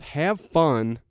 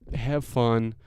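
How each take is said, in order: First: It is said with more emotion. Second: It is said flatly, with little feeling.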